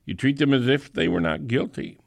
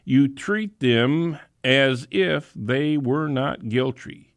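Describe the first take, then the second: First: Fast, brisk repeat; quick restatement. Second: Slow, weighty delivery of the phrase; stretched out for emphasis; slow emphatic. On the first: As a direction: rattle it off quickly. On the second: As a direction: lean into each word slowly. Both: Shown as a demonstration.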